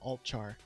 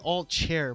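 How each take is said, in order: First: The second syllable sounds like "char." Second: The second syllable sounds like "chair." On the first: The speaker calls it right. "so I just pronounce it altchar" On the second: The speaker calls it wrong. "I always want to say alt chair, but there's no I in there"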